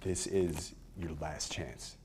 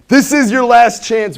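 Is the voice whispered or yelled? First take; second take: whispered; yelled. First: It is said in a calm whisper. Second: It is said loudly, like yelling. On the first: The listener feels the stakes emotionally. The speaker calls it right. "The calm whisper" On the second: The listener feels attacked. The speaker calls it wrong. "feels like someone's yelling at me"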